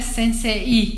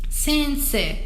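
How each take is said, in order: First: The i is strong and clearly pronounced. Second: The i is weak, just lengthening the e. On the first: The speaker calls it wrong. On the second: The speaker calls it right.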